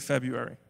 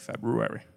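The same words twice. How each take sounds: First: The second syllable has no r sound. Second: The second syllable has an r sound. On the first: It sounds ordinary to most people. The speaker calls it wrong. "if you want to sound normal, you say February" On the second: It is the strictly correct form. The speaker calls it right. "if you want to be correct, if you're a writer, you got to say February"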